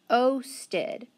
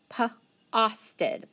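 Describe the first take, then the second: First: The first vowel is long, as in 'go'. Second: The first vowel is short, as in 'hot'. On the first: The speaker calls it right. "let's try it with the long" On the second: The speaker calls it wrong. "let's try it short"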